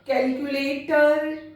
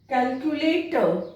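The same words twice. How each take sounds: First: The final r sound is drawn out long. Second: The final r sound is left silent. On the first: The speaker calls it wrong. "बहुत लंबा pronounce करते हैं" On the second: The speaker calls it right. "आर इस तरह के जब words आते हैं तो वहां पर साइलेंट रहता है"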